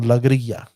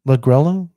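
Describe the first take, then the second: First: The middle consonant is a Y sound. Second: The middle consonant is an L sound.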